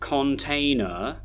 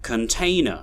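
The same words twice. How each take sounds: First: The unstressed syllables have full vowels. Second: The unstressed syllables are reduced to schwa. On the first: The speaker calls it wrong. "We don't say container" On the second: The speaker calls it right. "we have this pattern of stressed and unstressed syllables"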